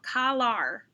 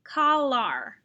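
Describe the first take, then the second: First: The second syllable has an 'ar' vowel. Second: The second syllable has an 'ar' vowel.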